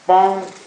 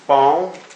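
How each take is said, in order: First: The pitch stays high and level. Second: The pitch rises from middle to high. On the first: "the flat tone" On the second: "the rising tone"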